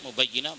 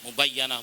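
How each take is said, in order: First: The vowel after the doubled y is i. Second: The vowel after the doubled y is a. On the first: "wa kasriha dan kasrohnya ya" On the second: "bifathil ya'i boleh dibaca fathahnya ya"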